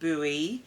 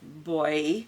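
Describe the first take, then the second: First: The word is said the American way. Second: The word is said the British way, like boy. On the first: "you pronounce the word buoy" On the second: "we pronounce it boy"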